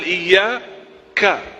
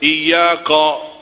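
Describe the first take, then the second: First: The final ka sound is clear. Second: The final ka sound is distorted. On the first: The speaker calls it right. "padahal iyyaka" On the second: The speaker calls it wrong. "Saya sering mendengar orang baca iyyaka"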